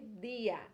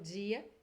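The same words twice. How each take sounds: First: It is said with a Spanish accent. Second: It is said with a Rio Brazilian Portuguese accent. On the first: "em espanhol vai ser dia" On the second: "eu carioca pelo menos falo dia"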